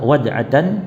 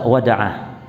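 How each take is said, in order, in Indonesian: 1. Kata ini berakhiran -atan secara penuh. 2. Kata ini berakhiran -ah pendek. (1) "Boleh dibaca wada'atan" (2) "boleh dibaca wada'ah"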